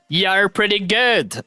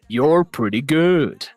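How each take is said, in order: First: It is said in a plain voice. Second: It is said in an evil villain voice.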